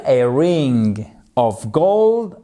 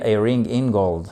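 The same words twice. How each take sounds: First: Said in the usual way. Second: "in" said lower, as the tempting mistake; "a ring in gold" with "in", the wrong way; wrong version "a ring in gold". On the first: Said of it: "Non, vous allez me dire". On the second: Shown as a demonstration. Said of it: "Ça marche pas".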